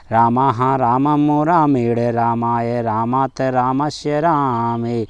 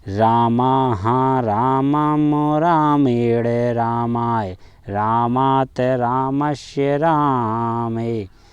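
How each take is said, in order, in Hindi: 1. शब्द एक ही सांस में जल्दी-जल्दी बोले जाते हैं। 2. शब्द धीरे और सोच-समझकर बोले जाते हैं। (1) "फिर कितने भी जल्दी बोल सकते हैं" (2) "आपको धीमे धीमे बोलना है। कैसे?"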